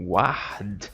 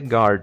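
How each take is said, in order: First: The u after the g is pronounced. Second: The u after the g is silent. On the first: The speaker calls it wrong. "em português, quando a gente falaria algo como guard, não" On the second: The speaker calls it right. "em inglês é guard, esse G U A, né? Nessa palavra vira G"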